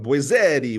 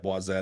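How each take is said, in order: First: The name is said with an Italian ending. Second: The name is said with a French ending. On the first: The speaker calls it wrong. "I was giving you a very Italian" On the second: The speaker calls it right. "It has to be boisette"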